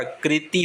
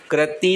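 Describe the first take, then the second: First: कृति as "kri-tee"; slow कृति with "kri"; correct ri sound. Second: कृति misspoken as "kra-tee"; wrong ra sound. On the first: Teacher correcting it, कृति slowly said "kriti". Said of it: "री की मात्रा आती है". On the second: Teacher showing the error, कृति said "krati". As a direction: put an a after kr in कृति. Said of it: "कृति नहीं होता". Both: Shown as a demonstration.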